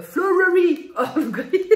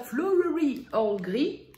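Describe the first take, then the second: First: "flowery Earl Grey" laughed out, higher and louder, slowly; laughing. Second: "flowery Earl Grey" said slowly and carefully in English, rising at the end. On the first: Real, not acted. Laughs at the tricky name. (« flowery Earl Grey » en éclatant de rire) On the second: Shown as a demonstration. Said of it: "c'est dur à dire ça". (« flowery Earl Grey » lentement, avec application)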